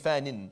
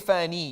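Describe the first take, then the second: First: The word ends in a short vowel plus 'n'. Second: The word ends in a long 'ee' vowel. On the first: The speaker calls it right. "you say fanin. You, you take away the ya" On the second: The speaker calls it wrong. "you don't say fani"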